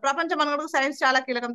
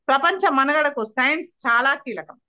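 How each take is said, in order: First: It is read straight through without any pauses. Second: It is read with pauses between the phrases. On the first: The listener cannot follow what is said. The speaker calls it wrong. "ఎలాంటి pause లేకుండా చదువుతాం" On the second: The listener can understand what is said. The speaker calls it right. "మనం మాట్లాడే విధానం ఎలా ఉండాలంటే"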